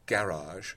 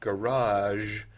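First: It is said in a British pronunciation. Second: It is said in an American pronunciation.

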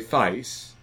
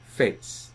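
First: The word is said with a Cockney vowel. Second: The word is said without a Cockney vowel. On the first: "if you want to talk like a Cockney, you'd say" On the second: "in my end, we say"

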